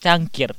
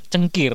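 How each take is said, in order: First: Said in the usual way. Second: "cengkir" with a short schwa in the first syllable; Javanese pronunciation. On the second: Shown as a demonstration. Podcaster showing a cohost the local word, "cengkir" in Javanese pronunciation. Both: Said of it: "Lah Jawa iku cengkir".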